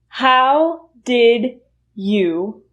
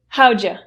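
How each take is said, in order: First: Each word is said fully and separately. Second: The words are reduced and run together quickly.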